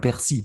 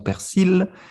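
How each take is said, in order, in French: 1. Le L final est muet. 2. Le L final se prononce. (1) "ne prononce pas le L" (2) "Dans le sud, par exemple, nous disons persil"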